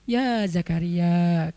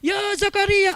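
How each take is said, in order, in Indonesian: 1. Frasa itu diucapkan dengan tenang, volume biasa. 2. Frasa itu diteriakkan dengan keras, nada tinggi.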